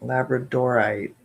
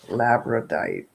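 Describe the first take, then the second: First: Labradorite said fully as lab-ruh-dor-ite; Labradorite, careful and complete; corrected pronunciation. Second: Labradite said as lab-ruh-dite, syllable dropped; Labradite, unsure, four beats short; unsure mispronunciation. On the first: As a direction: settle on Labradorite with every syllable. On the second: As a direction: try Labradite hesitantly, missing the middle syllable. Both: Real, not acted. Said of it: "Is that how you say it?".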